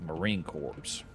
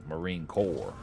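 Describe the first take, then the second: First: The last word ends with a 'ps' sound. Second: The last word ends in a plain 'r' sound. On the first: The speaker calls it wrong. "It'd be like Marine Corps" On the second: The speaker calls it right.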